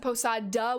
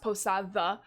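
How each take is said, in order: First: The d sounds hard, like an English d. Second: The d sounds soft, like th in the. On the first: The speaker calls it wrong. "If you pronounce it posada with a hard D, that is incorrect" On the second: The speaker calls it right. "it is correctly pronounced posada"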